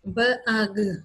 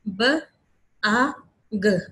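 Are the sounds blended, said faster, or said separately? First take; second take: faster; separately. First: The separate sounds are said a bit faster. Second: Each sound is said separately with clear gaps. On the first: "अगले में थोड़ा सा speed up कर दिया" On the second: "पहले step में हमने बिल्कुल अलग अलग डिफ्रेंशिएट करके बोली है"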